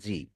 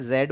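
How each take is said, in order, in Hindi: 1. यह अक्षर ज़ी बोला जाता है। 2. यह अक्षर ज़ेड बोला जाता है। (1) "अमेरिकन इंग्लिश में इसी को जी बोलते हैं" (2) "ब्रिटिश में जेड बोला जाता है"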